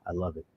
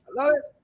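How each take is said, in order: First: Said in the usual way. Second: Jumping way higher in delight; a squeaky, gleeful repeat; squealed. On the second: Real, not acted. Fan squeals his delight at Hawkman's acting, much higher.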